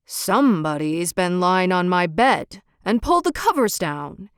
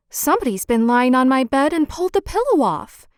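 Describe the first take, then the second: First: Lightly voiced big bear, a touch of a growl; a hint of a grumbling father bear. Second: Lightly voiced mother bear, a bit louder; a hint of an indignant mother bear; middle-sized Mother Bear. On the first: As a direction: read it like a big papa bear, mildly gruff. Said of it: "he growled in his great big voice". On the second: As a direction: read it as a fussing mama bear. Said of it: "said she in her middle-sized voice". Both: A narrator's reading.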